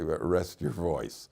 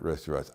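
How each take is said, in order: First: It is said in a soft, gentle tone. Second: It is said in a blunt, harsh tone. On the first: It is a polite hint to take a break. The speaker calls it right. "in a very very discreet way" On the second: It is a rude order to stop talking. The speaker calls it wrong. "I did not say it like that"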